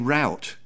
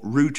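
First: It is said with an American pronunciation. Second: It is said with a British pronunciation. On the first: "because that's what they say in America" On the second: "the word that we say over here"

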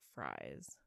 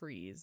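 First: The vowel is 'eye', like 'rise'. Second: The vowel is long 'ee', like 'breeze'. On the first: The speaker calls it wrong. "not Fries. But it looks like fries" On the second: The speaker calls it right. "I bet you it's Freeze"

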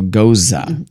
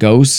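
First: The word ends with a 'za' sound, like 'Rosa'. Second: The word ends with an 'st' sound, like 'ghost'. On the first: The speaker calls it right. "it's like Rosa" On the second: The speaker calls it wrong. "we've been saying it wrong the whole time"

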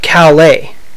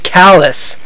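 First: It is pronounced the French way. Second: It is pronounced the way Maine says it. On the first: This names the town in France. The speaker calls it right. "In France, they call it Calais" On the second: This names the town in Maine. The speaker calls it wrong. "They called it Calais"

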